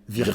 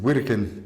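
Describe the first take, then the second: First: The name is said the French way, with a v. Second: The name is said the Russian way. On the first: "C'est un V" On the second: "les Russes disent"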